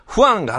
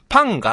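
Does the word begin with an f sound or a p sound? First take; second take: f sound; p sound. First: The word begins with an f sound. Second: The word begins with a p sound. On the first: The speaker calls it right. "ファンがって言うたら" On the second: The speaker calls it wrong. "パンがってなってたらしい"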